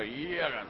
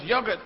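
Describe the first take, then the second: First: YOGURT swallowed like food going down; sliding down the throat. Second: Said in the usual way. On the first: Shown as a demonstration. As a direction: gulp out "Yogurt" as a throat noise. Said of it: "sounds when it's going down your throat". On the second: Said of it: "sounds when it's going down".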